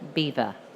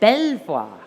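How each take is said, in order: First: The name is said like the English word beaver. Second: The name is said the French way, bel-vwar. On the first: This is the worn-down local form. "it's been bastardized to Beaver" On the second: This is the original meaning, beautiful view. "they said, Belvoir, beautiful view"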